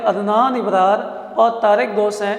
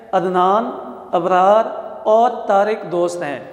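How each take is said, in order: First: Adnan Abrar said as one name, with no pause between; names run together. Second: Adnan and Abrar set apart, each followed by a short pause; pause between names. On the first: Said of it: "اگر ہم اس کو یہاں پہ استعمال نہ کریں". (عدنان ابرار بغیر ٹھہرے، ایک ہی نام کی طرح) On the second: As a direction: separate Adnan from Abrar with a brief stop. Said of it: "یہ علامت ناموں کو الگ کر رہی ہے". (عدنان اور ابرار کے بعد مختصر ٹھہراؤ، نام الگ الگ) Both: Shown as a demonstration.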